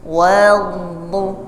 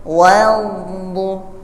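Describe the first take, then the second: Both takes have the same delivery.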